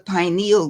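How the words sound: The first vowel sounds like the word pine. "using the American accent"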